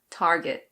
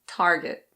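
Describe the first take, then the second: First: It is said in American English with the R. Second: It is said in American English with the R.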